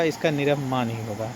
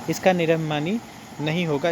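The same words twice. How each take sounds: First: निरभिमान ending on the plain न, no final ई; correct form. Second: निरभिमानी with a long final ई, said as the rejected form; wrong form. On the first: Teacher giving students the correct form, calm and plain. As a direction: say निरभिमान cleanly, stopping on न. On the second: Teacher showing students the wrong adjective form, plainly. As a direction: say निरभिमानी ending on ई to show the mistake. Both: Shown as a demonstration.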